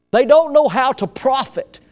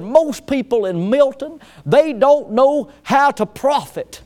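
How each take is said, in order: First: Repeated in the same higher country radio voice; country accent. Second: Put-on country radio planner accent, pitched higher. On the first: Retold or imitated. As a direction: say it again as the country radio planner. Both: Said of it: "it sounded just like that guy".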